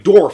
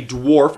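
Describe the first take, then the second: First: The word is said like dorf, no w. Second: The word is said with a w sound.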